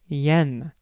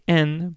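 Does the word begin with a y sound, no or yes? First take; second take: yes; no. First: The word begins with a y glide. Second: The word begins directly with a vowel. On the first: This is the English way of saying it. "In English, we say yen" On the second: This is the Japanese way of saying it. "we don't say en"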